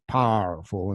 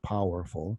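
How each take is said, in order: First: It is said in a put-on drawling accent. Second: It is said in a plain everyday accent. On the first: "powerful instead of" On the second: "instead of powerful"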